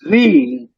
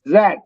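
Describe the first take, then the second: First: The letter is said as zee. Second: The letter is said as zed.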